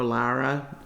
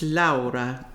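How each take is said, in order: First: It is said in a Midwestern accent. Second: It is said in an Italian accent.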